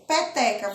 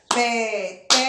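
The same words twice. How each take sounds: First: Said in the usual way. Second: "peteca" split as pe-te-ca, one clap each; syllables split. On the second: Shown as a demonstration. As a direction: clap out "peteca" in three beats. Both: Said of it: "Eu bati a mão três vezes".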